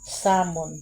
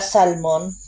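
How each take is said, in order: First: The L sound is left out of the word. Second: The L sound is pronounced in the word. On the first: "Pero silent L pala yan" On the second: "di ba salmon?"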